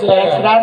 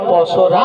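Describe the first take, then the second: First: The first syllable has an 'e' vowel and 'sh'. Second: The first syllable has an 'o' vowel and 's'. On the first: The speaker calls it wrong. "আরে পেশরা নয়" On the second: The speaker calls it right. "বলো পসরা"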